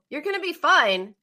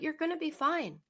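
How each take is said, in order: First: It is said in a cold, unwarm way. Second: It is said in a warm, comforting way.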